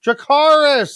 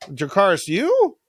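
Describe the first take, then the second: First: High, loud hammed-up call; mock desperate command. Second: Puzzled dragon. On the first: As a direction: call out the dragon command theatrically. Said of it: "she had to say Dracarys". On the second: Acted. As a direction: echo the command like a clueless dragon. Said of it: "I don't understand".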